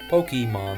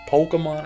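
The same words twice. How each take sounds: First: The middle vowel is a hard E. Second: The middle vowel is not a hard E. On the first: This is how the speaker always says it. The speaker calls it right. "That's how I say it" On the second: This is how other people say it. The speaker calls it wrong. "I hate that"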